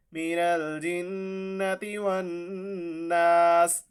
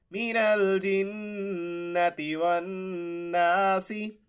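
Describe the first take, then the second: First: वन्नास ending on a stopped स, slow chant; pause form. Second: Slow chant ending वन्नासी with ी; connected recitation. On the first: Teacher showing the pause after the linked form. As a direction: stop on वन्नास instead of वन्नासी. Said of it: "तो जब वक्फ करेंगे". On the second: Teacher modelling the linked reading. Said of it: "recites verse, connected form". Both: Shown as a demonstration.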